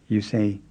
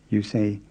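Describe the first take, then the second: No difference in how they are said.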